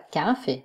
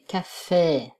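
First: The stress is on the first syllable. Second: The stress is on the last syllable. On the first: The speaker calls it wrong. "Pas café" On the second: The speaker calls it right. "mais café"

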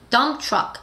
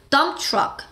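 First: It is said with English sounds and syllables. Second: It is said with English sounds and syllables.

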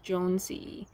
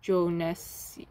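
First: The name Jones is kept whole. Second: The name Jones is broken across syllables. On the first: The speaker calls it right. "pronounce the name. Don't break it up" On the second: The speaker calls it wrong. "not Jonesy"

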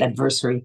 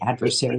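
First: The word is said the European way. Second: The word is said the standard English way. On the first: The speaker calls it wrong. "not adversary. It's a European way to say it" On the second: The speaker calls it right. "I have to say that word today"

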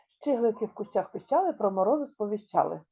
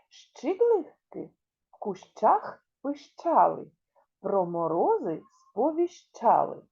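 First: It is spoken at the fastest pace. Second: It is spoken at a slow, careful pace.

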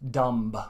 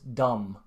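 First: A strong B is pronounced at the end. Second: The word ends with no B sound. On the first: The speaker calls it wrong. "Finns really put a strong B at the end. So I hear dumb" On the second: The speaker calls it right. "But this is wrong, so it's dumb"

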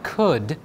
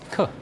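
First: The final d sound is fully pronounced. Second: The final d sound is dropped. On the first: The speaker calls it wrong. "It's not could" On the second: The speaker calls it right. "See how the end is dropped? just could"

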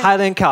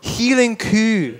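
First: It is said in a plain standard accent. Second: It is said in a broad Scottish accent.

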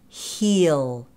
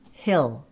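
First: The vowel is a full 'ee' sound. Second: The vowel is a reduced 'eh' sound. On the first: "That has more of a green vowel, E" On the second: "reduce that vowel a little bit more, so more like a pink vowel, eh"

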